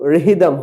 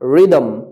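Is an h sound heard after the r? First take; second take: yes; no. First: An h sound follows the r. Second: No h sound follows the r. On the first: The speaker calls it wrong. "এখানে তো রেহিদম হয়নি" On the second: The speaker calls it right. "আর উচ্চারিত হবে কিন্তু এইচ উচ্চারিত হবে না"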